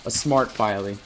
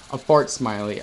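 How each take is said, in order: First: "A smart Filey" read with the sounds swapped, smart and Filey; misread. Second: "A fart smiley" with the weight on "fart"; corrected reading. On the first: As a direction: stumble over "smart Filey" as if a name. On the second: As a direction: land on "fart" as the joke. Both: Shown as a demonstration.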